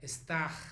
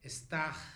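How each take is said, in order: The two takes are said the same way.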